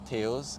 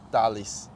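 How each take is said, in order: First: The name is said the English way. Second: The name is said the Portuguese way. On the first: The speaker calls it wrong. "it doesn't pronounce Tails" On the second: The speaker calls it right. "It should pronounce like Dalis"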